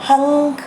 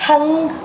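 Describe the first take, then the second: Both takes have the same delivery.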